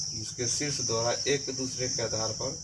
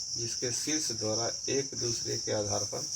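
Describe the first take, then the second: No difference in how they are said.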